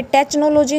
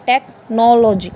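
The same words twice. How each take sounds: First: टेक्नोलॉजी with CH, "tech-as-in-catch"; wrong pronunciation. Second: टेक्नोलॉजी slowly, with a K in "tek"; correct pronunciation. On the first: Teacher showing students the mistake, CH mispronunciation. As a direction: say टेक्नोलॉजी as "TETCH-nology". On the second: Teacher correcting students, slow K pronunciation. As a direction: say टेक्नोलॉजी as TEK-nology, drawn out. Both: Shown as a demonstration. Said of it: "यहाँ पे टेक्नोलॉजी नहीं होगा".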